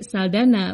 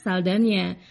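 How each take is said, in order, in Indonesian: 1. Konsonan tengah adalah n biasa. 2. Konsonan tengah adalah bunyi ny. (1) "Sayangnya Hollywood lebih mengenal artis ini sebagai Saldana" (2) "bukan Saldana"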